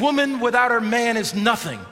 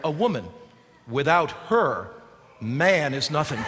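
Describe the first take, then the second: First: It is said straight through without pauses. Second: It is said with pauses at the commas.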